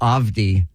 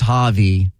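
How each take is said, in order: First: The name is said without the H sound. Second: The name is said without the D sound. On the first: "Could be the H" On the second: "Maybe it's the D"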